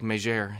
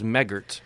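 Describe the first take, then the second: First: The name is said with a French-style pronunciation. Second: The name is said with a plain English pronunciation. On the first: "I'm just going to start telling people it's French like Megere" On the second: "my last name is Megert"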